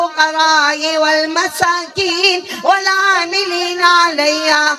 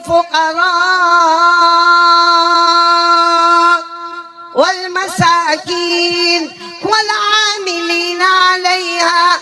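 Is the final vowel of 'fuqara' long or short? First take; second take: short; long. First: The final vowel of fuqara is kept short. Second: The final vowel of fuqara is drawn out long. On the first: The speaker calls it wrong. "ये गलत पढ़ रहे हैं" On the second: The speaker calls it right. "एक हर्फ को जो खींचना था"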